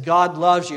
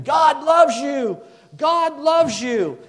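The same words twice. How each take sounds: First: Said in the usual way. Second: High, loud, drawn-out shout; screaming it out. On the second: Retold or imitated. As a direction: imitate a man yelling slowly over a highway. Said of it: "he's just screaming".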